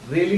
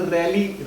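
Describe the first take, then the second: First: रैली with a closed ay vowel, like rail; रैली with the vowel of रेल; wrong vowel. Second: रैली with an open vowel, like "rally"; रैली said "ral-lee"; double-matra vowel. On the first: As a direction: say रैली as "ray-lee". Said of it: "रैली नहीं बोलते". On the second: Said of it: "रैली होता है". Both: Shown as a demonstration.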